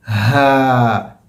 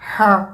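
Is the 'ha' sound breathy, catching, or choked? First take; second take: breathy; choked. First: Air flows out freely through an open throat. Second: The sound gets stuck high in the throat. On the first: The speaker calls it right. "इसमें हवा बाहर निकल रही है" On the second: The speaker calls it wrong. "आवाज़ ऊपर के हलक में अटक जाती है, ... ये भी गलत है"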